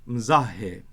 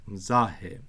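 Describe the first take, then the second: No difference in how they are said.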